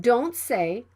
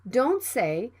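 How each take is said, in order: No difference in how they are said.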